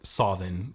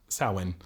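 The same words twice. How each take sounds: First: It uses an older Irish pronunciation. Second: It uses a more modern Irish pronunciation.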